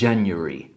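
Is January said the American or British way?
British. It has the British ending, more like 'ery'. "w brytyjskim akcencie jest bardziej ery"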